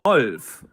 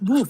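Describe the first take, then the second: First: The vowel is an O sound. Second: The vowel is not an O sound. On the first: The speaker calls it right. "It's Wolf with an O" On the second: The speaker calls it wrong. "It's not wolf"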